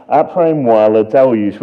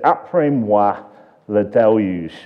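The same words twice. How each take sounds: First: Louder, proper French accent on the quote. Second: Said in the usual way. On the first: Shown as a demonstration. Preacher quoting Louis the fifteenth, now in a French accent. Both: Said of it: "I didn't attempt the accent there".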